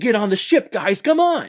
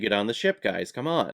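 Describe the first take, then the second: First: It is said with lively, energetic effort. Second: It is said flat, dry and apathetic. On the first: The line matches the character's visible effort. The speaker calls it right. "supposed to be something like" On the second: The line sounds like no effort is being made. The speaker calls it wrong. "this very dry, apathetic cadence"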